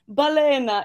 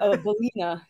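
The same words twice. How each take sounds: First: The name is pronounced the Italian way. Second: The name is pronounced the American way. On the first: "is the Italian way of saying it" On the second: "but here in America"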